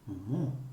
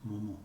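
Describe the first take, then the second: First: The stress falls on the last syllable. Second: Both syllables are equally flat and unstressed. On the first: The speaker calls it right. "It's momo, momo. The last syllable is stressed, always" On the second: The speaker calls it wrong. "It's not momo. Both syllables just as flat as the other"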